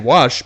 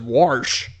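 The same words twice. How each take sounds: First: It is said in a plain, standard way. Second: It is said in an old Southern way. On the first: "A lot of people like to say" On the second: "the old timers all around the South like to pronounce it"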